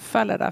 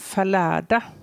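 First: The stress is on the first syllable. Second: The stress is on the second syllable. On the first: It sounds like a trumpet blast. The speaker calls it right. "för det läste om en trumpetstöt" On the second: It sounds like someone stumbling down a staircase. The speaker calls it wrong. "beroningen på andra stavningen"

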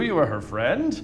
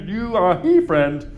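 First: The line is spoken smoothly and naturally. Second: The line is spoken stiffly, sounded out word by word.

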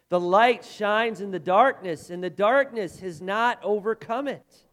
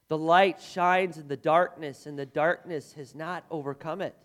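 First: It is said forcefully, with strong conviction. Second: It is said plainly, without special emphasis.

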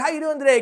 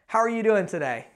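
First: It is said fast and energetically. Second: It is said slowly and calmly.

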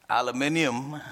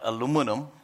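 First: The word is said in the British way. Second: The word is said in the American way. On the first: The speaker calls it right. "I had British education in India and in high school learned to say aluminium" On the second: The speaker calls it wrong. "not aluminum"

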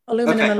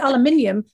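First: It is said the American way, four syllables. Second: It is said the British way, five syllables.

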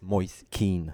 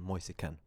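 First: The name is said with an English pronunciation. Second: The name is said with an Italian pronunciation. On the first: This is how the name is said in England. "så nu i England så heter han faktiskt Moise Kean" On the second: This is how the name is said in Italy. "i Italien så säger man Moise Kean"

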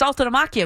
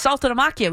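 First: The name is pronounced with an Italian reading. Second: The name is pronounced with an Italian reading.

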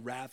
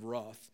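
First: The word has an American pronunciation. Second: The word has a non-American pronunciation. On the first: "I spent 4 years in America trying to learn to say wrath" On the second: "instead of wrath"

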